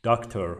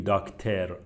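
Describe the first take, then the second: First: "داکتر" with a reduced English ending, "DOK-ter"; correct pronunciation. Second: "داکتر" with a full Persian e, "dak-TER"; wrong pronunciation. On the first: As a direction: say "داکتر" with a light, unclear final vowel. (تلفظ درست «داکتر» با صدای آخر سبک) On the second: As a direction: show the mistaken "داکتر", clear e before r. (تلفظ نادرست «داکتر» با صدای اِ کامل) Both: Shown as a demonstration. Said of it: "نمیگیم داکتر".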